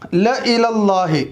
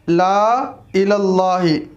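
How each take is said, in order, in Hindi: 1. पहला स्वर छोटा है। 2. पहला स्वर लंबा है। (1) "लाम के बाद जो अलिफ है वो साइलेंट होगा, सिर्फ ल पढ़ा जाएगा" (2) "लिखने का तरीक़ा है ला इलल्लाहि"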